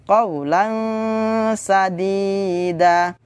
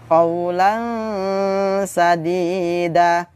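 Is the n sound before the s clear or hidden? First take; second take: hidden; hidden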